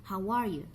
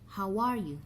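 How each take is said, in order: No difference in how they are said.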